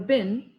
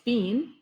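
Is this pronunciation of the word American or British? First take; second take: American; British. First: It is said with an American pronunciation. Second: It is said with a British pronunciation. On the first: "as the American pronunciation" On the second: "this is British pronunciation"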